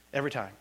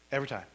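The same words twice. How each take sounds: The two takes are said the same way.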